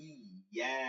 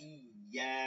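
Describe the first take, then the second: Both takes have the same delivery.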